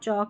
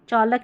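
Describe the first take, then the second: First: No L sound is pronounced before the K. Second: An L sound is pronounced before the K. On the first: The speaker calls it right. "चौक में एल silent रहता है" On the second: The speaker calls it wrong. "चौलक नहीं पढ़ते"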